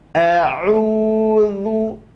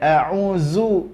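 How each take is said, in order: First: The middle consonant is a dh sound, tongue between teeth. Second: The middle consonant is a plain z sound. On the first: The speaker calls it right. "ujung lidah nempel ke ujung gigi seri atas" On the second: The speaker calls it wrong. "Jadi bukan a'uzu, enggak"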